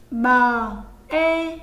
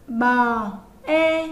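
First: Loud, separate "bờ" then "e", each set apart; spelling aloud again. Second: Loud, separate "bờ" then "e", each set apart; spelling aloud. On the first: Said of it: "Các em nghe cô đánh vần lại". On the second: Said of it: "Chúng ta đánh vần như sau". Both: Shown as a demonstration. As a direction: call out "bờ, e" slowly and clearly as a model.

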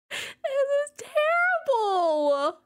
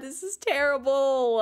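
First: High, slow drawn-out wail; mock wail. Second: Said in the usual way. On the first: Real, not acted. Streamer to her chat after the gross salad, high drawn-out wail. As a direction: stretch it out high like a mock lament.

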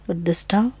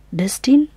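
First: "Destin" with a nasal French -an ending; "Destin" guessed as des-TAN, French style; "Destin" französisch genäselt, fragend; French pronunciation attempt. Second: "Destin" with a clear -in ending, like the English word; "Destin?" said as DES-tin, asking and rising; "Destin" ausgesprochen wie geschrieben, fragend; trying a pronunciation. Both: Shown as a demonstration. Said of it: "Wird das so ausgesprochen?".

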